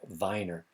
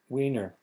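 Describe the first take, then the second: First: The name begins with a V sound. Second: The name begins with a W sound. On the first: "If this were German, it would be pronounced Vi- Weiner because the W sounds like a V" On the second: "That's the English pronunciation"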